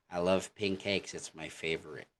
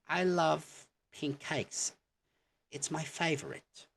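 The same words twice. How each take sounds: First: Plain American "I love pink cakes. It's my favorite."; American accent. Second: British accent. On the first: Teacher contrasting the American way to say favorite. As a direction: say it the American way, no lift. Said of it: "in American". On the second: Teacher showing the British way to say favorite. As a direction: say it the British way, lifting the pitch. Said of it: "in a sentence". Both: Shown as a demonstration.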